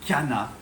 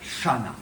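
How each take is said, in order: First: The word begins with a hard k sound. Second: The word begins with an sh sound. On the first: It follows the scientific Greek-origin pronunciation. The speaker calls it right. "il faut dire Kana" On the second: It follows a French-style common pronunciation. The speaker calls it wrong. "et pas Shana"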